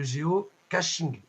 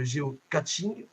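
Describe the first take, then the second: First: The middle does not sound like 'catch'. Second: The middle sounds like the word 'catch'. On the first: The speaker calls it right. "mais le géocaching" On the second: The speaker calls it wrong. "pas le géocaching, on n'est pas dans une partie de catch"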